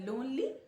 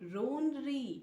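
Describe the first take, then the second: First: It is said with a clear English L sound. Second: It is said Japanese-style, with R replacing L.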